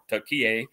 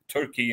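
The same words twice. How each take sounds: First: The name is said in its Turkish form. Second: The name is said in its usual English form.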